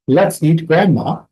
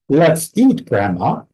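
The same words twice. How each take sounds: First: The words run on with no pause before grandma. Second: There is a pause between eat and grandma. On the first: Grandma is the thing to be eaten. "has almost no difference in pause between words one and two and two and three" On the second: Grandma is being invited to eat. "has a slightly different pause between words two and three, between eat and grandma"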